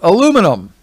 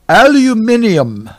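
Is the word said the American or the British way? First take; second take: American; British. First: The word is said the American way. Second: The word is said the British way. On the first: "When you're here in America, we call it aluminum" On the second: "When you go to the UK, they call it aluminium"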